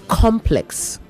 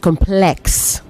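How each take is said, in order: First: It is said with the noun pronunciation. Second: It is said with the adjective pronunciation. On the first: The word names a group of buildings. "As a noun, it is complex" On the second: The word describes something as complicated. "As an adjective, it is complex"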